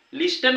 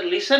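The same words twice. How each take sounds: First: लिस्टन with a hard t in the middle; wrong reading with T. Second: लिसन with only s in the middle, no t; correct silent-T reading. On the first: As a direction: say लिस्टन, sounding the silent t. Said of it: "लिस्टन वाचत नाही". ('ट' उच्चारून चुकीचे लिस्टन) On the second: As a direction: say लिसन, dropping the t. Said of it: "तर लिसन म्हणतो याला". ('ट' silent ठेवून लिसन) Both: Shown as a demonstration.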